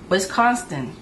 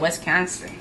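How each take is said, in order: First: It is said in the speaker's own accent. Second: It is said imitating a local Wisconsin accent. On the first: "That's how I pronounce it" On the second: "He said Wisconsin"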